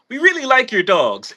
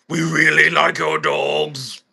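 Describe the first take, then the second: First: It sounds friendly and harmless. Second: It sounds menacing and threatening.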